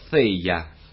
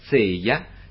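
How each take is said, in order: First: It begins with a tongue-between-teeth th sound. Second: It begins with a z sound. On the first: This is the rustic local form. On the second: This is a softened substitute form. "sostituendola con «z»"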